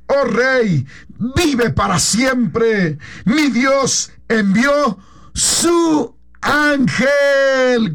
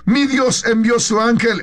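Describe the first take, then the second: First: Slow, crying voice with a higher pitch; tearful reply. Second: Said in the usual way. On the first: Acted. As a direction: answer the king through tears, very slowly. Daniel answers the king. (Daniel responde al rey desde el foso, con voz llorosa y muy lenta)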